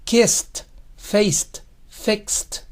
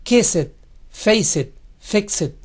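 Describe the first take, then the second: First: "kissed, faced, fixed" ending in a bare t; slow, one syllable each, ending in t; correct -ed ending. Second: "kissed, faced, fixed" with an added "-et" syllable; wrong extra vowel. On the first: Teacher giving students the correct form, slowly. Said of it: "Solo kissed". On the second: Teacher showing students the mistake to avoid. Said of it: "Nunca digan". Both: Shown as a demonstration.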